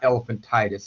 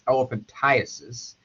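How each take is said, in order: First: The word ends with an 'eye-tis' sound. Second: The word ends with an 'eye-uh-sis' sound. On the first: The speaker calls it wrong. "it's mispronounced quite a bit as elephantitis. It's not elephantitis" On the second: The speaker calls it right. "it's elephantiasis"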